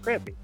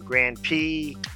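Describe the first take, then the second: First: The two words are said quickly and run together. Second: The two words are said slowly and separately.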